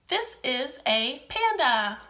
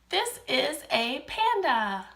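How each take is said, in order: Both takes have the same delivery.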